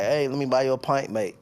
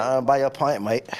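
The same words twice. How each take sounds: First: Light mock Irish accent offering a pint; a lightly put-on Irish pub accent. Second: Put-on Irish accent. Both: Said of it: "that's your best Irish accent?".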